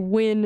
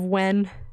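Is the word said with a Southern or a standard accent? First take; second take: Southern; standard. First: It is said with a Southern American accent. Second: It is said with a standard American accent. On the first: "There's that southern accent coming out a little bit. Where you say when" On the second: "instead of when"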